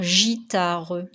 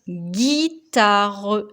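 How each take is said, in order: First: It begins with a soft J sound. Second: It begins with a hard G sound. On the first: The speaker calls it wrong. "Si on oublie de mettre la lettre U, on va lire" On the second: The speaker calls it right. "Comme on veut le son G"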